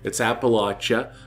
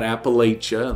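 First: It is said the non-Californian way. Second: It is said the Californian way. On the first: This is how the region's own name is said. The speaker calls it right. "it's Appalachia, not Appalachia" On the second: This is how outsiders say the name. The speaker calls it wrong. "not Appalachia, like we would say in California"

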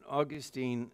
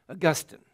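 First: It is said in the American way. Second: It is said in the British way. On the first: "mine is a Monican pronunciation" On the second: "raised in the British world, and so you'll be saying Augustine"

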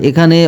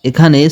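Both takes have the same delivery.

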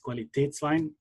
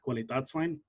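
First: The middle vowel is an umlauted 'eh' sound. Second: The middle vowel is a plain 'ah' sound. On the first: The speaker calls it right. "two dots on the top of the A over here, which makes it pronounced as" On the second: The speaker calls it wrong.

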